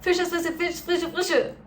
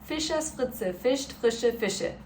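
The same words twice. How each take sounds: First: It is said as fast as possible. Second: It is said somewhat faster.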